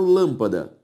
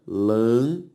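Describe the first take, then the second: First: Said in the usual way. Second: "lâmpada" in three separate beats with pauses between; split into syllables. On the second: Shown as a demonstration. Teacher separates lâmpada for the class, syllable by syllable. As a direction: sound out "lâmpada" one syllable at a time. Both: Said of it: "Se eu separo lâmpada".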